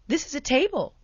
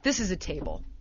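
First: The voice rises at the end like a question. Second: The voice falls at the end like a statement. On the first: It seeks the listener's agreement. "we'll do it as a question" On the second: It is stated with confidence. "Guys are more confident"

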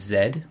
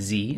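First: The letter is said the Canadian way, 'zed'. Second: The letter is said the American way, 'zee'.

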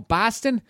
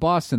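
First: The word is said in an exaggerated mocking accent. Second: The word is said in a natural local accent. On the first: An outsider mocks the local accent. The speaker calls it wrong. "They go, oh, Boston? It's like, did I say it like that?" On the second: A local says where they are from. The speaker calls it right. "You'd be like"

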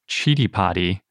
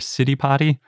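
First: It is said with the Sanskrit pronunciation. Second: It is said with a non-Sanskrit pronunciation. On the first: The speaker calls it right. "the correct way to say it" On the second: The speaker calls it wrong. "and not Citipati"

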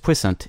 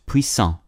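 First: The word is said with an English pronunciation. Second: The word is said with a French pronunciation. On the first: "spelled the same way as" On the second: "The modern French word ... is pronounced"

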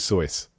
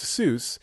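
First: The vowel sounds like the one in voice. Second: The vowel sounds like the one in juice. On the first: This is the original German-style pronunciation. The speaker calls it right. "The actual pronunciation is Soyce" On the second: This is the common anglicized pronunciation. The speaker calls it wrong. "Is regularly pronounced Seuss, an anglicized pronunciation"

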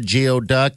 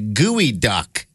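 First: The word begins with a 'gee-oh' sound. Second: The word begins with a 'gooey' sound. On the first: The speaker calls it wrong. "I mispronounced it. It's not a geoduck" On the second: The speaker calls it right. "It's pronounced as a gooey duck"

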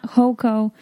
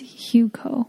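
First: The first syllable rhymes with 'go'. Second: The first syllable sounds like 'Hu' in Huron. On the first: The speaker calls it wrong. "It's not Hoco" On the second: The speaker calls it right. "It's Huco. ... like Huron County"

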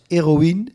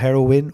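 First: The name is said like French 'héroïne'. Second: The name is said like English 'heroin'. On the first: The speaker calls it right. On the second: The speaker calls it wrong.

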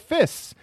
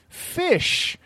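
First: The word ends with a plain s sound. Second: The word ends with an sh sound. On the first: A child is mispronouncing the word. The speaker calls it wrong. "They don't know they're saying it wrong" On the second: An adult is correcting the child. The speaker calls it right. "no, not fists, fish"

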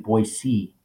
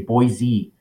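First: The middle consonant is a hissing s sound. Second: The middle consonant is a buzzing z sound. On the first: The speaker calls it right. "it's actually Boise. You know, it's not a Z" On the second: The speaker calls it wrong. "like we say Boise"

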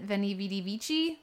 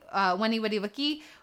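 First: Each word begins with a V sound. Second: Each word begins with a W sound. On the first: The speaker calls it wrong. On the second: The speaker calls it right.

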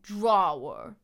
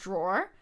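First: It is said with a New York accent. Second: It is said with a general American accent.

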